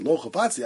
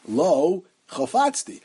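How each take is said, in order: First: It is said without a pause, in one breath. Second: There is a pause after the first word. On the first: It is one statement: I don't want to take her. The speaker calls it right. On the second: It sounds like two separate statements. The speaker calls it wrong.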